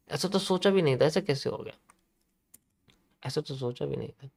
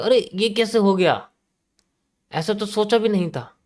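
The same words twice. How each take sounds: First: Mock disbelief fading to near silence. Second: Higher, slow, shocked "अरे" then disbelief; surprised buyers. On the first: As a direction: let the shocked murmur die away. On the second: Retold or imitated. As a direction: play a stunned buyer. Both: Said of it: "buyers कहेंगे".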